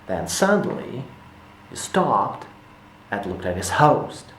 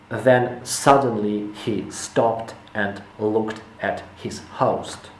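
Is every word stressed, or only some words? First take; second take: only some; every word. First: Only a few key words are stressed. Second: Every word is stressed equally. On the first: The speaker calls it right. "You have to stress certain words that are important and leave everything else else unstressed" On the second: The speaker calls it wrong. "you stress everything"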